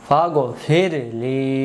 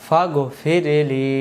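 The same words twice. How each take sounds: The two takes are said the same way.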